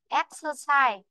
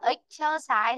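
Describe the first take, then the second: First: The stress falls on the first syllable. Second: The stress falls on a later syllable. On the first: The speaker calls it right. "trọng âm nó rơi vào chính chữ é đó. Nên chúng ta phải phát âm là chữ é" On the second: The speaker calls it wrong. "Còn nếu em đọc là exercise thì nó đã âm ý rồi. Âm ý thì nó lại không có trong âm. Nên em đọc sai nhá"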